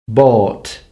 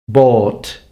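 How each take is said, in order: The two takes are said the same way.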